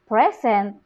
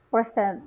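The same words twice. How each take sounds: First: "present" as adjective, PRES-ent, first syllable stressed. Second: "present" as verb, pre-SENT, reduced first syllable; verb stress. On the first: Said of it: "it becomes an adjective". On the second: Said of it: "Present is a verb". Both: Shown as a demonstration.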